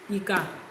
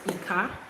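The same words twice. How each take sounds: First: The pitch goes from mid to low. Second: The pitch goes from low to high. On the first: "It can be pronounced as Redo" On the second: "that is Domi"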